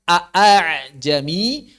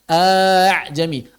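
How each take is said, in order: First: Both glottal stops are pronounced fully. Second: The second glottal stop becomes a long vowel. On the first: This is the original form of the word. "Yang asalnya" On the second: This is not the transmitted reading here. "itu namanya mad ibdal"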